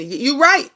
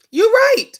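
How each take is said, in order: First: Said in the usual way. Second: A high, loud burst of agreement on "right"; "right" thrown up high and loud, then dropping; emphatic agreement. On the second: Real, not acted. Host strongly agreeing with a viewer's comment, emphatic.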